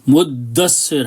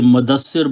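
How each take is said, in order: First: The d sound is held and doubled. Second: The d sound is short and single. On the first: This is the original form of the word. The speaker calls it right. "मुद्दस्सिर है ये" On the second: This is the common mistaken Urdu form. The speaker calls it wrong. "ये मुदस्सिर बोलते हैं"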